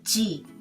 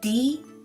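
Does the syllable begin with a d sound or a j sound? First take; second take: j sound; d sound. First: The syllable begins with a j sound. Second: The syllable begins with a d sound. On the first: The speaker calls it right. "but G" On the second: The speaker calls it wrong. "Not D"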